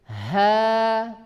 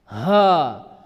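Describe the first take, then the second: First: The h is light, thin and breathy. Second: The h is heavy, forced from the chest. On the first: The speaker calls it right. "Jangan dibaca dengan kuat" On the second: The speaker calls it wrong. "mengeluarkan dari dada"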